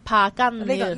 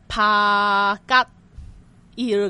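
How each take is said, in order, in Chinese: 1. 中间的辅音变成n音，读作nil。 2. 它是逐个字母读的，没有n音。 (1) "所以咁成个字咧就变成pa gun near" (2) "原本就系读帕吉ear 咁样啦"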